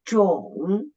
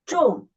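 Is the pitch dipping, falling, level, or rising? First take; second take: dipping; falling. First: The pitch dips low, then rises again. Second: The pitch falls sharply from high to low. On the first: "the third tone, down at first, and then raise up" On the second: "the fourth tone ... from the highest down to the lowest"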